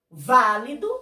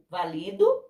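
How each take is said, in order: First: The stress is on the first syllable. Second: The stress is on the second syllable. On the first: It is the adjective meaning valid. "Válido é proparoxítona" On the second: It is the verb meaning I validate. "valido é paroxítona"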